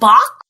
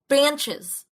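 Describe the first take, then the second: First: The name is said without an n sound. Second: The name is said with an n sound. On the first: The speaker calls it right. "What is it, Bach?" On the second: The speaker calls it wrong. "I've been calling them Banches"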